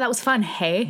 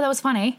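First: It is said at a normal, unhurried pace. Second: It is said fast, so hey sounds like eh.

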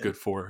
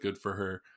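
First: The word 'for' has a full 'or' vowel. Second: The word 'for' sounds like 'fur'. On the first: The speaker calls it right. "instead of good for her" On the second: The speaker calls it wrong. "I said fur because I have a fucking stupid accent"

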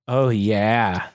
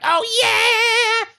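First: It is said quietly without energy. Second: It is yelled loudly with energy.

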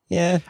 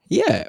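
First: The yeah sounds flat and unenthusiastic. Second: The yeah sounds enthusiastic and lively. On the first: "instead of having an enthusiastic yeah, I'd like to go yeah" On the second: "It's an enthusiastic yeah"

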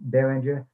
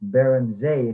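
First: The name is pronounced with English sounds. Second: The name is pronounced with French sounds.

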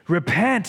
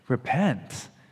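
First: It is said in a harsh tone. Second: It is said in a gentle tone.

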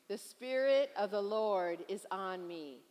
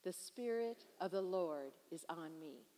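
First: It is said forcefully, with strong conviction. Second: It is said in a plain, ordinary way. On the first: "Now let's say it again with conviction" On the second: "Would you say that with me?"

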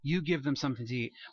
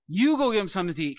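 First: It is said in a gentle tone. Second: It is said in a snarky tone.

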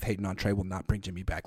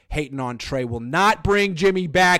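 First: The sentence is read at a fast pace. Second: The sentence is read at a slower pace.

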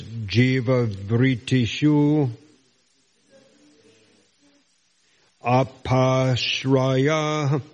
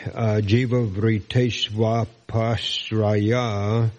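First: Each word is said separately, keeping the final u. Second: The final u becomes v, joining the next word. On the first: "It's actually pronounced in single words as" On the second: "that you at the end of vritishu becomes vritishvapashraya"

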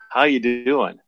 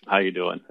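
First: It is asked with worried, caring concern. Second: It is asked casually, without real interest.

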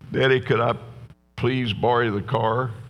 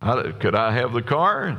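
First: The request sounds timid and pleading. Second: The request sounds confident and assured.

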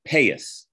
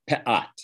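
First: Ashkenazi accent, ending in an s sound. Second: Modern Hebrew accent, ending in a t sound.

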